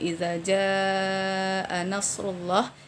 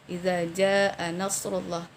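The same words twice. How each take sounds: First: The long vowel in jaa is held long. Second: The long vowel in jaa is cut short. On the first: The speaker calls it right. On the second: The speaker calls it wrong. "di sini hanya kita baca dua harakat saja yang seharusnya empat atau lima harakat"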